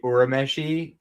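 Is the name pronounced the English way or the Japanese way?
Japanese. The name is said with Japanese pronunciation. "the live action and hearing them say Urameshi"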